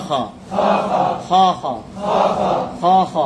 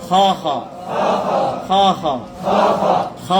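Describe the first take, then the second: No difference in how they are said.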